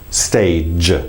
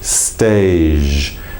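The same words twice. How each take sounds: First: The word ends in a strong j sound. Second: The word ends in a soft zh sound. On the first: The speaker calls it right. "make sure it's still quite strong at j" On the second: The speaker calls it wrong. "It could easily turn into stage, ... almost creating a zh sound"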